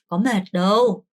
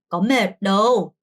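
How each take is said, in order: Both takes have the same delivery.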